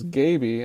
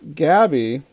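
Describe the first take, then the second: First: The first vowel is long, as in 'gate'. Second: The first vowel is short, as in 'cab'. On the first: The speaker calls it right. "but actually it was Gaby" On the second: The speaker calls it wrong. "I was pronouncing Gene Kelly's character's name as Gabby"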